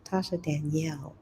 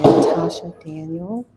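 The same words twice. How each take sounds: First: "Danielle" as dan-YELL, stress at the end; "Danielle" said dan-YELL, getting it right; careful correct pronunciation. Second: "Daniel" said as DAN-yul, stress up front; mistaken pronunciation. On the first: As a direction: carefully land "Danielle" on its last syllable, -YELL. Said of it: "I'm gonna get this right". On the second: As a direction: say "Daniel" like the first name, DAN-yul, loudly. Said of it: "I'm sorry, Tasha Danielle". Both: Real, not acted.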